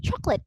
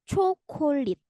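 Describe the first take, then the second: First: It is said with an English pronunciation. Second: It is said with a Korean accent. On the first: "Kalau dalam bahasa Inggris kan kita sebutnya chocolate" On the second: "mereka nyebutnya pakai logat Korea"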